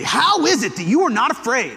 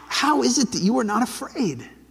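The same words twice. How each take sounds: First: The voice sounds harsh and angry. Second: The voice sounds tearful and sad. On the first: The speaker is furious. "Is he saying it angrily?" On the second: The speaker is grieving. "Is he saying it sort of tearfully?"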